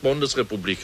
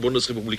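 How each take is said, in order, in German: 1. Der erste Vokal klingt wie ein 'o'. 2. Der erste Vokal klingt wie ein reines 'u'. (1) "er sagt Bundesrepublik" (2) "Sie sagen mal Bundesrepublik"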